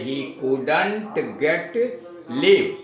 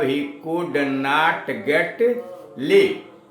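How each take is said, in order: First: 'Could not' is contracted into one word. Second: 'Could not' is said as two full words.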